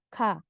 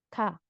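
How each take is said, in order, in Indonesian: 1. Diawali bunyi di antara g dan k. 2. Diawali bunyi di antara g dan k.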